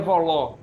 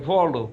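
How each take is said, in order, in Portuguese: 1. O acento está na última sílaba. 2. O acento está na primeira sílaba. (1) "volo nunca é voló" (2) "as palavras são paroxítonas e pré-paroxítonas"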